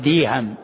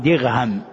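First: The middle consonant is a y sound. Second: The middle consonant is a gh sound. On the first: "وبعضهم يأتي بالياء فيقول ديهم" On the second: "بعضهم يأتي بالغين فيقول دغهم"

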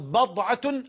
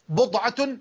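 First: The first vowel is a. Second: The first vowel is u. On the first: "الفتح" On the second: "الضم"

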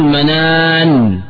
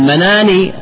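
First: The final n is silent, with no vowel after. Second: The final n is followed by a short i. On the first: The word is said at a pause. The speaker calls it right. "تقول منان بالوقف" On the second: The word runs on into what follows. The speaker calls it wrong. "مناني بكسر النون"

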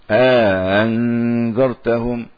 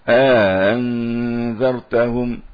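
No difference in how they are said.

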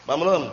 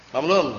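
The two takes are said the same way.

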